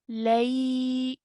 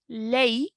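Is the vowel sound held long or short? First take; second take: long; short. First: The vowel sound is held for two counts. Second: The vowel sound is cut short. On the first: The speaker calls it right. "we will pronounce this for two counts" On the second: The speaker calls it wrong. "rather than saying"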